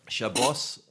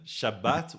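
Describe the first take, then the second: First: The word ends with a hissing s sound. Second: The word ends with a sharp t sound. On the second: This is the Mizrahi, North African pronunciation. "Shabbat would be say um, Mizrahi, um, North African"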